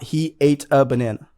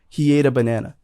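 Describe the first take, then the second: First: The words are said separately and clearly. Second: The words are run together smoothly. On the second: "connected speech everywhere"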